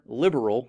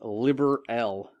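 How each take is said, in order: First: The word is said quickly, run together. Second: The word is said slowly, in separate parts.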